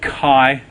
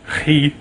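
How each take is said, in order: First: The letter name is said the Australian way. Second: The letter name is said the Greek way. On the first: "Here in Australia, it's called chi" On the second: "I believe in Greek it's chi"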